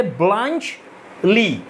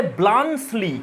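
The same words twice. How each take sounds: First: ব্লাঞ্চ লি with a ch sound and a pause, blanch... lee; correct pronunciation. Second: ব্লান্সলি with an s sound, blan-slee; wrong pronunciation. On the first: Teacher to students, showing the proper sound, careful demo. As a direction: split it: ব্লাঞ্চ, short pause, লি. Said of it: "এরকম sound হবে". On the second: Teacher showing the common mistake with the name, offhand. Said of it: "এটা উচ্চারণ হবে না". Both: Shown as a demonstration.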